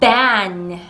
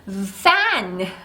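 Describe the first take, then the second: First: The first sound is a popped lip sound. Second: The first sound is a voiceless hiss. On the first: "울리는 소리 B로 잘못 내는" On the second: "갑자기 fan 하고 소리가 변해버린"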